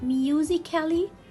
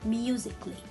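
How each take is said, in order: First: The vowel before -ly is pronounced as a syllable. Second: The vowel before -ly is silent, not pronounced. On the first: The speaker calls it wrong. "Can I read it musically? No" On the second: The speaker calls it right. "here A is a silent letter"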